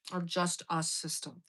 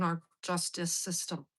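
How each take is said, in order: First: "just us" split into two words, full vowel on "us"; punning on justice. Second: Said in the usual way. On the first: Shown as a demonstration. Wry pun on the justice system, "just us" pulled apart.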